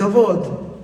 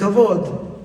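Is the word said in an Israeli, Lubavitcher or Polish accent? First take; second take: Israeli; Israeli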